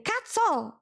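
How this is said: The word starts with a hard k sound. "instead of saying a k"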